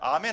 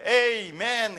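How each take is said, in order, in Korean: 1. 이 단어는 'ah' 소리로 시작합니다. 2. 이 단어는 'ay' 소리로 시작합니다. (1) "잉글리시로 할 때는 아멘 하면 안 되고" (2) "에이멘 해야 됩니다"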